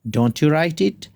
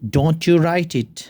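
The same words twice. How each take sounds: Both takes have the same delivery.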